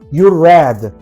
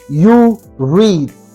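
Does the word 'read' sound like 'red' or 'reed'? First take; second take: red; reed. First: The word read sounds like the color red. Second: The word read has a long ee vowel. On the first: The reading happened in the past. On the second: The reading happens now. "ustedes leen"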